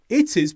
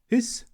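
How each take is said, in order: First: Both words are said fully and separately. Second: The words are squeezed into one short syllable. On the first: "In the written form" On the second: "when we're speaking quickly"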